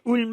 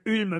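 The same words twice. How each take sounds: First: The vowel is an 'oo' sound, German style. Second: The vowel is the French front rounded 'u'. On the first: This follows the original German pronunciation. "normalement on dit Ulm. U en Allemagne se dit ou" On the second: This is how it is usually said in France. "c'est rue du Ulm"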